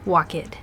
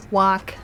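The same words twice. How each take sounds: First: "walk it" as a mistaken walk-id; wrong extra syllable. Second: Said in the usual way. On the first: Shown as a demonstration. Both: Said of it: "good try".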